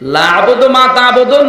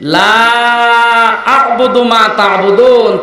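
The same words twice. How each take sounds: First: The first vowel is said short. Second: The first vowel is drawn out long. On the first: I worship what you worship. The speaker calls it wrong. "লাতে টান না দিয়ে সরাসরি পড়ে" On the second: I do not worship what you worship. The speaker calls it right. "তিন আলিফ টান আছে লা।"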